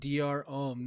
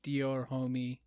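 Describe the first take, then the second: First: The second word is a short 'om' with silent h. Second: The second word is 'homie' with a sounded h. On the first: The speaker calls it right. "It's called Dior Om" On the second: The speaker calls it wrong. "not Dior Homie"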